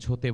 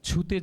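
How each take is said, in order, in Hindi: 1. पहला स्वर 'o' जैसा सुनाई देता है। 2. पहला स्वर 'u' जैसा सुनाई देता है। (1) "সেখানে ছোতে বলছো" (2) "ছুতে যেখানে বলবে"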